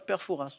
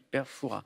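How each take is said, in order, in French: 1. Le S final de Fouras se prononce. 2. Le S final de Fouras est muet. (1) "On ne dit pas" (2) "les puristes ne prononcent pas le S de Fouras"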